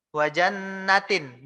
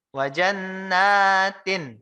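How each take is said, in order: First: "wa jannatin" with a short nun. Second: "Wa jannatin" slow with the nun drawn out; long nun. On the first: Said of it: "baru dia pendek". (nun "jannatin" dibaca pendek) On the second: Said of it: "Maka nunnya panjang". (nun "jannatin" dibaca panjang) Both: Shown as a demonstration.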